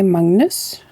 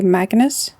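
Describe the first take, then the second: First: "Magnus" the Norwegian way, as MUNG-nus; drawn-out Norwegian "Magnus", MUNG-nus, rising at the end. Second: "Magnus" with a flat English A and a hard G; "Magnus" as MAG-nus, lifting at the end; English-style Magnus. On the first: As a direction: say "Magnus" with an open vowel and NG before the N. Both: Shown as a demonstration. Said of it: "In Norway, we say Magnus".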